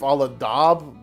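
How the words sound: Daube is said with an American vowel.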